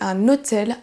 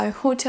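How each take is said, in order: First: The initial H is silent. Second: The initial H is pronounced. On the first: The speaker calls it right. "On va dire en français" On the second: The speaker calls it wrong. "mais pas"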